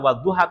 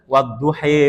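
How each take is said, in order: First: The word ends with an "a" vowel. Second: The word ends with an "e" vowel. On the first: This is the original shared reading. "sudah tidak lagi dibaca wadduha" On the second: This is a tribe's local dialect reading. "tapi dibacanya dengan wadduhe misalkan"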